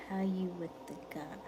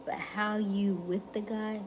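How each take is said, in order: First: Reading the question in a whisper. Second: Said in the usual way. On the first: Shown as a demonstration. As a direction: whisper the viewer's question to yourself. Reads chat question twice.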